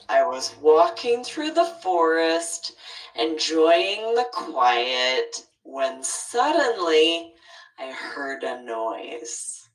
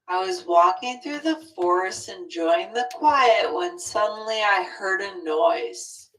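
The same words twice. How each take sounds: First: Clear pauses separate the phrases, with varied tone. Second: The phrases run together flatly without pauses. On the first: The speaker calls it right. "how it looks with the pauses" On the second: The speaker calls it wrong. "just without the pauses"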